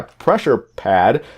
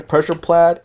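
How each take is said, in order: First: Said in the usual way. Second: "pressure pad" with pad slipping into "plad"; mispronounced. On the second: Real, not acted. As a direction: fumble "pressure pad", adding an L after the P of pad. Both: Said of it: "I really need to work on my English".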